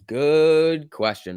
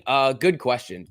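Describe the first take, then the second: First: "Good question" stretched very slowly; drawn out. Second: Said in the usual way. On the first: Shown as a demonstration. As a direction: drawl "Good question" out, musing.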